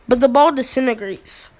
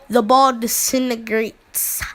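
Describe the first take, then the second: First: The S sound is short and unstressed. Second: The S sound is stressed and drawn out.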